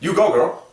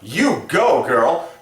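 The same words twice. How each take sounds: First: It is said fast and casually. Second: It is said in an exaggerated, over-the-top way. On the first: The speaker calls it right. "You gotta say it fast" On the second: The speaker calls it wrong. "that was a little bit extreme"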